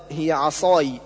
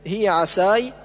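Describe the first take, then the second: First: عصاي with heavy emphatic s; correct sad. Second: عساي with thin plain s; sad as seen. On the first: Teacher correcting, full ص in عصاي. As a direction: thicken the ص and vowel of عصاي. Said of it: "والصواب". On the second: Teacher showing the error, thin s in عساي. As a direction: lighten ص into س in عساي. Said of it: "جعل الصاد سينا". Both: Shown as a demonstration.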